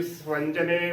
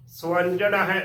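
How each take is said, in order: First: "ਸਵੰਜਨੇ" ending run together into "-ne"; mispronunciation. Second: "ਸਵੰਜਨ ਹੈ" with s gliding into w, "swanjan hai"; correct pronunciation. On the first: Teacher warns of the wrong form, "ਸਵੰਜਨੇ" ending in "-ne". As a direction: merge the last syllables of "ਸਵੰਜਨੇ" into "ne". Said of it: "ਗਲਤ ਉਚਾਰਨ ਹੋਵੇਗਾ". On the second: Teacher gives the right form, "ਸਵੰਜਨ ਹੈ" as "swanjan hai". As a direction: join s and w in "ਸਵੰਜਨ ਹੈ". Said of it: "ਉਚਾਰਨ ਕਰਨਾ ਹੈ". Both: Shown as a demonstration.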